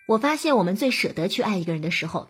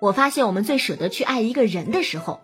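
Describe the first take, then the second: First: No word is given special stress. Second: The stress falls on 人. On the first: "我特意的没有表达出它的重点" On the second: "比如你把重音放在人字上，就会怎么听怎么别扭"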